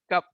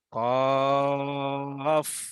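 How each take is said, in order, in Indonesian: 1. Kata ini berakhir dengan bunyi p. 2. Kata ini berakhir dengan bunyi f. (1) "Dah macam ikan lah" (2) "Kena bunyi F belakang"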